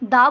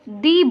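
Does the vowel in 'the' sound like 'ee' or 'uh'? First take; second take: uh; ee. First: The vowel sounds like 'uh'. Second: The vowel sounds like 'ee'. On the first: "कुछ लोग दा को दा बोलते हैं" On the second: "कुछ लोग दा को दी बोलते हैं"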